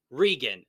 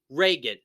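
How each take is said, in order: First: Regan with a long ee, REE-gun; mispronounced name. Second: Reagan with a long ay, RAY-gun; corrected pronunciation. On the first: Host rejecting the wrong way, Regan said REE-gun. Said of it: "not Regan". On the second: Host citing the film, Reagan said RAY-gun. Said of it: "it clearly say Reagan". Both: Shown as a demonstration.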